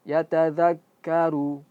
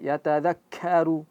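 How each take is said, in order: First: The k is released with a slight puff of air. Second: The k is released with a heavy puff of air. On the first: The speaker calls it right. "khusus untuk ka ketika diucapkan ada sedikit keluar, sedikit saja" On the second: The speaker calls it wrong. "jangan sampai ... itu terlalu berlebihan"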